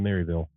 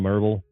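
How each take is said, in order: First: The name is said in full, three syllables. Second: The name is shortened to two syllables. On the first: "had to learn to say Maryville instead of Merville" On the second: "or however you want to pronounce it"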